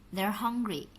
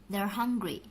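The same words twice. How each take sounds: Both takes have the same delivery.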